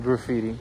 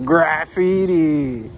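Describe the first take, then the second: First: The word is pronounced in a normal way. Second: The word is pronounced in an exaggerated way. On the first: "It's really graffiti" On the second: "I just exaggerated the pronunciation. I said graffiti"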